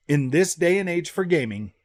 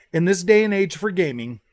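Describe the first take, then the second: No difference in how they are said.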